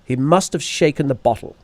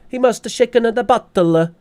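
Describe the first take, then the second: First: It is spoken in a posh English accent. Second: It is spoken in a put-on Italian accent. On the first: "my hello Sherlock Holmes accent" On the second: "My Italian accent is top notch"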